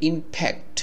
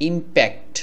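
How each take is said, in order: First: The consonant after 'im' sounds like an f. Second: The consonant after 'im' is a plain p.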